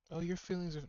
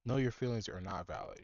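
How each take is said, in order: First: Mock nurse. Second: Said in the usual way. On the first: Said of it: "mocking the nurse's soothing line". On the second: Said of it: "answers the mocked line plainly".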